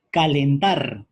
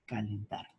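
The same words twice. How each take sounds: First: Calentar said loud and firm, each syllable clear; emphatic example word. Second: Calentar said soft and low, almost to oneself; quiet repeat. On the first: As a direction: announce calentar loudly to the class. (calentar, dicho fuerte y marcado) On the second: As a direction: murmur calentar back as a quiet aside. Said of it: "Tenemos aquí la E". (calentar, repetido en voz baja) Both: Shown as a demonstration.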